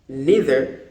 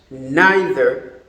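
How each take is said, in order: First: It is said in an American accent. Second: It is said in a British accent. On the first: "for the Americans" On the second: "for the British"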